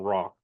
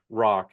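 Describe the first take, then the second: First: The final k sound is weak or dropped. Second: The final k sound is strong and clear.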